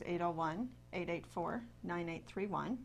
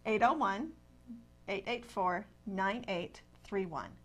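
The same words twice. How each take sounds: First: The number is said at normal speed. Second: The number is said more slowly.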